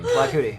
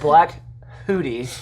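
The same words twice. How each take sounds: First: Said fast, the h blurring into a k. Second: Said carefully, with a clear h sound. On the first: "That's what it sounds like"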